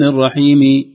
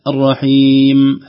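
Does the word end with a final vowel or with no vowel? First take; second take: final vowel; no vowel. First: The last letter is said with a vowel. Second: The last letter is said with no vowel. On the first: The speaker calls it wrong. "أنت ما تقول بسم الله الرحمن الرحيم" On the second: The speaker calls it right. "لا الرحيم هكذا"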